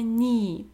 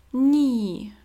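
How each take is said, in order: First: Knee said as "nee" again; knee, no k at all; calm "nee" for knee; silent k. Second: Knee said as "nee", k silent. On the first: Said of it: "mamy knee". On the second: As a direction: stretch out knee with no k sound. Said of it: "a tutaj mamy knee". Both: Shown as a demonstration.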